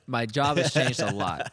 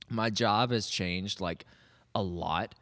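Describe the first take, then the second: First: It is said in a plain voice. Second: It is said in a Valley girl voice.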